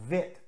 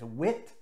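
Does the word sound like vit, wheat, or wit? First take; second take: vit; wit. First: It starts with v and has a short i vowel. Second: It starts with w and has a short i vowel. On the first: "or even as vit, assuming it's German" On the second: "often mispronounced as wit"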